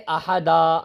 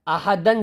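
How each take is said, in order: First: The word ends with a long 'a' vowel. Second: The word ends with an 'an' sound. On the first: The reader stops on this word. "एक जबर इसमें से अलिफ बन जाएगा" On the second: The reading continues without stopping. "अगर दो दो जबर थे ना आहदन में"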